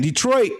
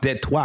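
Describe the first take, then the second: First: It is said with the usual English pronunciation. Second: It is said with a French-style pronunciation.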